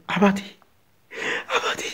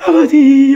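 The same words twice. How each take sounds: First: Soft, stifled North Korean plea; hushed North Korean prayer. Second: Loud, raised North Korean wail; tearful crying out. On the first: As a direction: barely voice it, afraid to be heard. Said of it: "조용히 입을 뒤집어 쓰고 소리 안". (북한 말투로 숨죽인 기도) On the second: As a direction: burst out weeping to Father. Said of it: "하고 막 울어". (울며 부르짖는 소리) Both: Acted.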